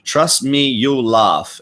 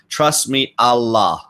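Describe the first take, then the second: First: The word "you'll" is said in full. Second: The word "you'll" is shortened to "al".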